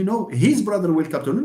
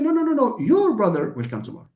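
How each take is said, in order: First: "his" leaned on as a contrast; emphasize "his", quickly; contradicting with weight on "his"; stress on HIS. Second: High rapid no's, then "your" emphasized; insistent correction, "your" stressed high. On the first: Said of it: "someone who told me". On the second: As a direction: correct them by leaning on "your". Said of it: "just the word your". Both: Shown as a demonstration.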